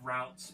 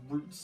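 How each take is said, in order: First: The word is given a non-British pronunciation. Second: The word is given a British pronunciation. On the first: "instead of routes" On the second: "I should be British. I'd be saying routes"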